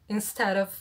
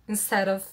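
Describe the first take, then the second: No difference in how they are said.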